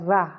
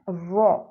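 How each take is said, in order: First: The r sound is thin, with a light vowel. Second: The r sound is heavy, with rounded full mouth. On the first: The speaker calls it wrong. "Not a रा, री, बारीक नहीं पढ़ना" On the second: The speaker calls it right. "पुर यानी मोटा करके पढ़ना है"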